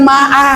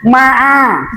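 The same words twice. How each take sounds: First: MA'A with a plain open second a, held level; wrong ain. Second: MA'A with a squeezed mid-throat second a; correct ain. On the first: Teacher shows the mistake, plain open vowel. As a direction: say ma'a without any throat squeeze. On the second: Teacher models the throat letter, squeezed a. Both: Shown as a demonstration. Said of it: "Itu jangan ma'a".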